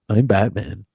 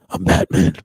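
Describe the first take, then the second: First: It is said in an ordinary, undisguised voice. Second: It is said in a put-on, disguised voice. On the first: "all the other auditions where everybody's like" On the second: "where he does the voice"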